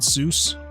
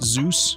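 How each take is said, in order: First: The name begins with an s sound. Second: The name begins with a z sound. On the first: The speaker calls it wrong. "not Seuss" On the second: The speaker calls it right. "pronounced Zeus"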